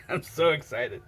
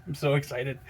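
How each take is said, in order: First: Saying it through a laugh; laughing excited. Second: Said in the usual way. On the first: Real, not acted. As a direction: giggle through the words.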